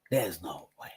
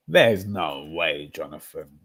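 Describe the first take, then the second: First: "There's no way" breathed as a whisper; hushed, defeated disbelief. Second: "There's no way" drawn out slowly; slow, heavy head-shaking delivery; slow disbelief. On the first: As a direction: whisper it, stunned. Disbelief repeated quietly. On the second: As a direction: stretch every word in disbelief. Disbelief at Arteta's choice. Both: Real, not acted.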